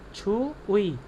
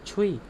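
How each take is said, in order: First: The two syllables are said as separate parts. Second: The two syllables run together into one sound. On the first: "ये एक्चुअली में वर्ड है" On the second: "अगर हम इसे फ्लो में पढ़ेंगे तो ये बनेगा"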